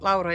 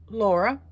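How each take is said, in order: First: The name is said with Finnish pronunciation. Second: The name is said with English pronunciation.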